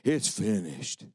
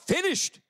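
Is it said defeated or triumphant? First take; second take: defeated; triumphant. First: It is said weakly, in a defeated tone. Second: It is shouted in a victorious tone.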